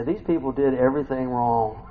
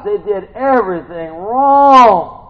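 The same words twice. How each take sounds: First: Said in the usual way. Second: High and loud, drawn out slowly; hammed-up preacher's disbelief; exasperated shout. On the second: Real, not acted. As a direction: stretch WRONG into a long loud wail. Exasperated repeat of phrase.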